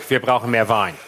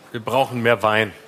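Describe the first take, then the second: First: A hint of Steinbrück, low; Steinbrück impression. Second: Steinbrück impression. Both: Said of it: "Den Satz habe ich von Steinbrück".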